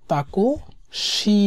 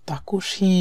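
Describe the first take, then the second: First: তাকুশি stretched very slowly, shi at the end; drawn-out takushi. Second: Said in the usual way. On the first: Shown as a demonstration. Teacher drilling তাকুশি for students, slow and clear. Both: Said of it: "শি আর সু এর মধ্যে পার্থক্যটা বুঝতে হবে".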